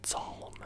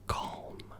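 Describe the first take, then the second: First: The word begins with an s sound. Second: The word begins with a k sound. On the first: The speaker calls it wrong. "you don't pr pronounce this psalm" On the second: The speaker calls it right. "You pronounce it as calm"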